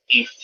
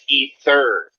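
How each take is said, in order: First: It is said in an English accent. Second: It is said in an American accent. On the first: "an English person is going to say ether" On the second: "Americans never neglect the R"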